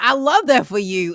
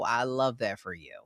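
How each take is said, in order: First: It sounds warm and genuinely enthusiastic. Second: It sounds flat and sarcastic. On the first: The speaker is truly happy for the other person. "Oh my god" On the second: The speaker is not really happy for the other person. "is a lot different than"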